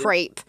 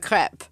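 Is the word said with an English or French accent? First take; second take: English; French. First: It is said with an English pronunciation. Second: It is said with a French pronunciation. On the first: The speaker calls it wrong. "the English sides, like people saying" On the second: The speaker calls it right.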